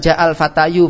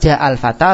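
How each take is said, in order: First: The last word ends in a y sound and u. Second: The last word ends in a plain long a. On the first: The final letter would be a ya, not alif. The speaker calls it wrong. "Kalau antum baca ja'al fatayu, ... juga namanya bukan alif, itu adalah iya" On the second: The final letter is an alif that takes no vowel. The speaker calls it right. "Maka antum baca ja'al fata"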